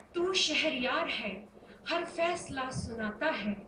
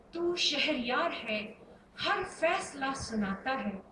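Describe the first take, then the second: The two takes are said the same way.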